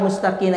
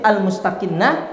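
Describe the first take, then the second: First: The n sound is short and single. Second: The n sound is held long, doubled. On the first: It means calm or low. "dibaca al-mustaqinah itu tanpa tasdid" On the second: It means hidden. "kita baca dengan tasdid"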